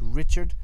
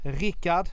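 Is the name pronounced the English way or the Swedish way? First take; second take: English; Swedish. First: The name is pronounced the English way. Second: The name is pronounced the Swedish way. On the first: "it's Richard in English" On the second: "that's the Swedish pronunciation"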